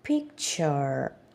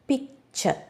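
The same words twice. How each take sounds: First: American accent, the final r is pronounced. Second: British accent, the final r is dropped.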